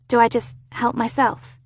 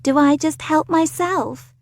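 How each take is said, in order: First: It is said in an ordinary, unaffected accent. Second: It is said in an exaggerated posh accent. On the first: It is a sincere question. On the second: It mocks the person who asked.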